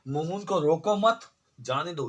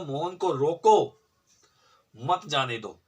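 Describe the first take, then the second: First: The pause comes right after मत. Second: The pause comes right after रोको.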